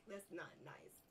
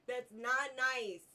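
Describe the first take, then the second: First: Breathy giggled words; giggling. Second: Slow, louder self-scolding; mock scolding. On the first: Gamer giggles it under his breath. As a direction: whisper it through a laugh. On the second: Gamer mock-scolds himself for laughing. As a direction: scold yourself in mock seriousness. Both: Real, not acted. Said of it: "I should not laugh".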